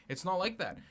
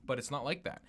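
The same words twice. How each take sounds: First: "like" lifted high and stressed. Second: Said in the usual way. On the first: Real, not acted. Friend correcting a friend, stressing "like". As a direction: lean hard on "like" in "It's not like that".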